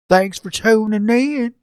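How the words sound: It is said in a put-on Southern accent.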